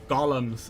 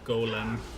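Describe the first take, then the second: First: The first vowel is short, like 'Gollum'. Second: The first vowel is long, like 'goal'. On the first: This is how the game says it. "as they pronounce it in this game" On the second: This is the familiar American way. "the Americanized Golem"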